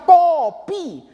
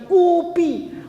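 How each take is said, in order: First: The first vowel is an 'o' sound. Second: The first vowel is an 'u' sound. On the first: It is how the word is written. "udah jelas ditulisnya kopi" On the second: It is a regional dialect reading. "masih ada yang bacanya kupi"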